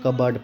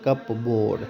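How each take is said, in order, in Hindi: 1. शब्द p की आवाज़ के बिना बोला जाता है। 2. शब्द p की आवाज़ के साथ बोला जाता है। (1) "कबर्ड पढ़ते हैं" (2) "नॉट कप बोर्ड। अगर कप बोर्ड पढ़ेंगे तो ये गलत हो जाए"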